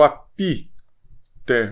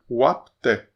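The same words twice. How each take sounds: First: "apité" with a clear i after p; wrong extra vowel. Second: "apté" with lips just closing on p; no vowel between p and t in "apté"; mute P. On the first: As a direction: stretch the mistaken "pi" in "apité". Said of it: "Não leia o apité". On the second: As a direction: stop on the p, then open "té" in "apté". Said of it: "Só fecha o lábio". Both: Shown as a demonstration.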